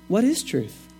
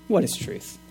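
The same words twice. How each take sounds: First: The question sounds sincere and genuinely curious. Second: The question sounds scornful and dismissive. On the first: The asker really wants to know the answer. "Or I could say it another way" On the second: No answer is expected because there is no truth. "I'm not even interested in your answer"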